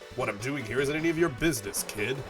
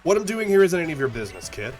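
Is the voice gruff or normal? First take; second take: gruff; normal. First: It is spoken in a gruff, put-on voice. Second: It is spoken in a normal, natural voice. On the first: "I've got to stop doing a gruff voice" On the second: "I'm just going to talk in my normal voice"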